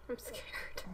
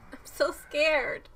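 First: Hushed, barely voiced fear; scared whisper. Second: Slow, louder admission of fear; scared, voiced. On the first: Viewer admits fear of what comes next, scared whisper. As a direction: whisper it to yourself. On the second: Viewer repeats the fear aloud, slow and scared. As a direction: draw out the fear, out loud. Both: Real, not acted.

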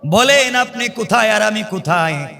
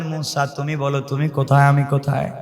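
First: Higher-pitched appeal, falling at the end; earnest question pitched up; raised-voice question. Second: Calm counter-question. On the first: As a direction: ask it in a raised preaching voice. Acts Musa questioning God. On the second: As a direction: turn the question back in a lowered voice. Acts God's calm reply. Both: Acted.

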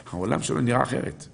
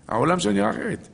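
First: Said in the usual way. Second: Lifted high, driving the point home; emphatic higher repeat. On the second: Shown as a demonstration. Preacher repeating to listeners, high and emphatic. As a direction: say it again much higher for emphasis.

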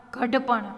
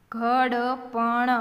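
First: Said in the usual way. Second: Every letter voiced separately; sounded out. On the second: Shown as a demonstration. Teacher spelling for beginning readers, sounded out. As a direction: draw ઘડપણ out as gha-da-pa-na.

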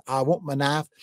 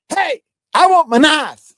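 First: Said in the usual way. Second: High, loud, drawn-out yell; screamed out. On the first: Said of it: "When I hollered". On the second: Retold or imitated. Preacher yelling for his lost knife, mock shout. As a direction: yell it out across the room. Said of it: "I screamed out".

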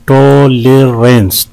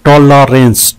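First: "टॉलरेंस" slowly, in three beats; syllable breakdown. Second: Said in the usual way. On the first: Shown as a demonstration. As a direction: draw out each syllable of "टॉलरेंस". ("टॉलरेंस" तीन हिस्सों में धीरे) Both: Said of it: "तीन है इसमें".

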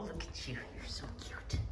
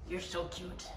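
First: Whispered softly to the kitten. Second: Soft coo. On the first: Owner whispering to her cat, whispered coo. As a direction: breathe the words out, no voice. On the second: Cooing at the cat. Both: Real, not acted.

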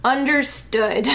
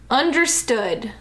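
First: Slow "Understood", as if to himself; drawn-out "Understood" with no question. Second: "Understood" said as a statement; "Understood" as a closed order; period, not question. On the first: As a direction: say "Understood" slowly as a private statement. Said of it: "Like, to himself". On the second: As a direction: say "Understood" with a full stop, no question. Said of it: "It's just a period. It's not a question". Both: Shown as a demonstration.

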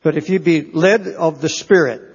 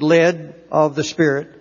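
First: Said in the usual way. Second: "led" set apart with weight and a short pause after it; stress on "led". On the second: Real, not acted. Preacher repeating scripture to emphasize a word, stress on "led". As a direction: lean firmly on the word "led". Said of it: "I want to emphasize this word".

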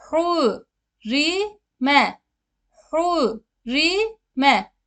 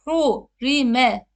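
First: "Hurime" with the u leaning toward ü; correct vowel shown. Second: "Hurime" with a plain Turkish back u, marked as wrong; wrong vowel shown. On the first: Teacher to students, modelling the right "Hurime". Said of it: "U'dan Ü'ye meyilli olacak şekilde hu sesini veririz". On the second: Teacher to students, showing the wrong "Hurime". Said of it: "Hurime de değil". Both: Shown as a demonstration.

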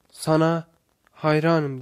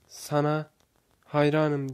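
First: Louder, measured narrated shout; shouted praise. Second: Softened echo of a shout; echoed reply. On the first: Wise man calls toward the valley, mild shout. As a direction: call the praise out across a valley. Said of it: "diye bağırır". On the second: Voice from the valley answers him, understated echo. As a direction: return the praise with less force. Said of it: "diye yanıtlar". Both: A narrator's reading.

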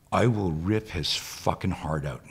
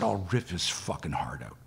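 First: Slow, emphatic retold threat; retold angry threat. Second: Quicker, understated repeat of a threat; retold repeat. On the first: Woman in class threatening an imagined intruder, understated anger. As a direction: spell out the threat word by word, understated. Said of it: "women start screaming at me". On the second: Woman repeating her threat when asked, understated. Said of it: "She said".

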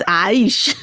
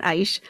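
First: "aish" drawn out with rising end; corrected pronunciation. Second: "aish" said short with falling end; wrong pronunciation. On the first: Speaker showing viewers the correct word, "aish" long and rising. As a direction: stretch "aish" and lift it at the end. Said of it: "It's aish". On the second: Speaker correcting herself, "aish" short and falling. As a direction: give "aish" as the quick, falling wrong version. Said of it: "It's not aish". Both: Shown as a demonstration.

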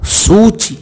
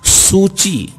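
First: सूची with a long, stretched first vowel; drawn-out pronunciation. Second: सूची read out higher, falling at the end; word demonstration. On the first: Teacher contrasting similar-sounding words, सूची stretched out. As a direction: draw out the ू in सूची, slowly. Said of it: "अलग शब्द उच्चारण". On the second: Teacher reading out look-alike words, सूची pronounced carefully. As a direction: say सूची as a separate model word. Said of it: "उसका वाचन मैं आपको". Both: Shown as a demonstration.

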